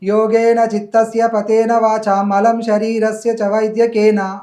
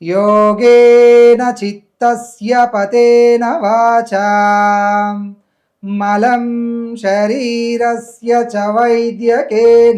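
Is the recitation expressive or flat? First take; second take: flat; expressive. First: It is read flatly, like plain prose. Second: It is recited with dynamic stress and lengthening. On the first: The speaker calls it wrong. "ఇదొక విధానం" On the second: The speaker calls it right. "మంత్రాన్ని మంత్రంగా చదవాలి"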